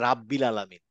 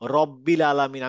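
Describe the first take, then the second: First: The first vowel is an open 'a' sound. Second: The first vowel is a rounded 'o' sound. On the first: The speaker calls it wrong. "আমি বলবো না রাব্বিল আলামিন" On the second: The speaker calls it right. "যেরকম যে রব্বিল আলামিন"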